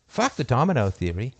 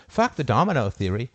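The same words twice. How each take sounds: The two takes are said the same way.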